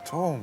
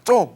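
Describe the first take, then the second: First: It is said in a soft, coaxing tone. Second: It is said in an irritated, annoyed tone. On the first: The speaker wants to make a good impression. "잘 보고 싶으면은" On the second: The speaker is in a bad mood. "기분 나쁘면은"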